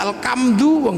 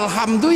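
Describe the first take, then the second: First: The middle sound is replaced by a k. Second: The middle sound is a breathy Arabic h.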